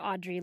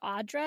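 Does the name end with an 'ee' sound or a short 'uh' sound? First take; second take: ee sound; uh sound. First: The name ends with an 'ee' sound. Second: The name ends with a short 'uh' sound. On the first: The speaker calls it wrong. "I keep calling her Audre Lorde" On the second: The speaker calls it right. "but it's Audre?"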